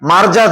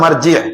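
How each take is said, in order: First: The word ends with an 'a' vowel. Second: The word ends with an 'i' vowel. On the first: The speaker calls it wrong. "মারজা বলাটাও ভুল" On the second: The speaker calls it right. "আসলে শব্দটা হবে মারজি"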